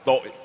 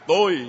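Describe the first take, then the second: First: The word is said with a low glottalized tone. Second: The word is said on a level tone. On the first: It means guilt. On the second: It means I.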